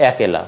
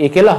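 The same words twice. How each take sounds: First: একেলা starting with open "ae" as in "cat"; একেলা pronounced "AE-ke-la"; open initial vowel. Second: একেলা starting with closed "e"; closed initial vowel. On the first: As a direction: say একেলা as "aekela". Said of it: "উচ্চারণ হবে". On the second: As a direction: say একেলা as "ekela". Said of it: "হবে না". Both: Shown as a demonstration.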